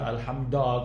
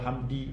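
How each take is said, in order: First: The word ends with an a vowel. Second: The word ends with an i vowel. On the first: "tersalah baris" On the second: "tersalah baris"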